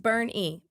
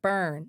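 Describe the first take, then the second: First: It is two syllables ending in 'ee'. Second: It is one syllable with no final 'ee'. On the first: The speaker calls it right. "No, it's Burn E" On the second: The speaker calls it wrong. "Or is it Burn?"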